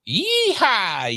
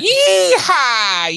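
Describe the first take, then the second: First: It is said half-heartedly, without enthusiasm. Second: It is said heartily, with strained enthusiasm.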